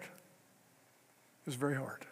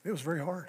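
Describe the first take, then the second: First: Quieter and slower, weighed down; heavy, slow, soft repeat. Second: Said in the usual way. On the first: Real, not acted. Preacher lingering on his brother-in-law's decline, slow and soft. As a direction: let it sink, slowly and softly.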